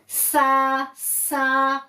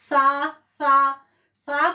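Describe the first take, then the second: First: The s sound has a sharp whistling hiss. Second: The s sound is soft without a whistle.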